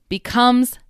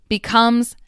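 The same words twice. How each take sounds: Both takes have the same delivery.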